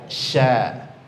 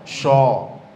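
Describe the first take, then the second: First: The sound is thin, with lips spread in a smile. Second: The sound is thick, with a rounded heavy vowel. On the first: The speaker calls it right. "huruf tipis, yaitu ketika membunyikannya cukup posisi senyum saja" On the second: The speaker calls it wrong. "jangan dibaca sho"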